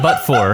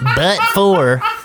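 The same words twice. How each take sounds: First: The phrase is said plainly without extra emphasis. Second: The phrase is said with heavy, exaggerated emphasis. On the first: The speaker calls it right. "You just say but for" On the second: The speaker calls it wrong. "You're like but for"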